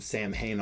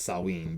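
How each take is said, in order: First: It is pronounced just as it is spelled. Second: It is pronounced unlike its spelling. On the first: The speaker calls it wrong. "which is not pronounced that way" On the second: The speaker calls it right. "I believe it's actually pronounced Samhain"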